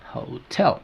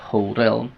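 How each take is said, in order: First: The t is a clear, full t sound. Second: The t is a quick flapped sound. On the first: The speaker calls it right. "Tengo que decir hotel" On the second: The speaker calls it wrong. "yo no puedo decir hotel"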